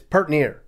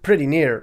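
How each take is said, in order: First: It is said in the South Dakota pronunciation. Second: It is said in the general pronunciation. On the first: "it's pert near" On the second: "Something isn't pretty near"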